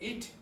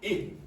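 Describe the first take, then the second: First: The final t is fully pronounced. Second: The final t becomes a glottal stop. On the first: "Instead of it" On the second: "they might say it"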